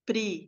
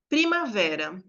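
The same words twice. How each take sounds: First: Primavera as pri, ma, ve, ra, with clear gaps; syllable by syllable. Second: Said in the usual way. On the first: Shown as a demonstration. Teacher counting the syllables of Primavera, each said on its own. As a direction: break Primavera into four separate syllables. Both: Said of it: "Quantificando conscientemente".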